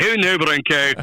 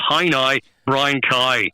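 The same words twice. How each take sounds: First: Scottish version, for contrast with Belfast; Scottish accent. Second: Slow Belfast demonstration, "cow" as kye; Belfast accent. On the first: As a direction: demonstrate Scottish rounded vowels in "cow". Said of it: "would be the Scottish". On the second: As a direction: show the Belfast version, slowly. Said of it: "would be Belfast". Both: Shown as a demonstration.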